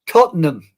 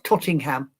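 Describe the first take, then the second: First: The middle sounds like 'ten', with no 'ing'. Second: The middle sounds like 'ting', adding an 'ing'. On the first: The speaker calls it right. "Tottenham, not Tottingham" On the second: The speaker calls it wrong. "not Tottingham"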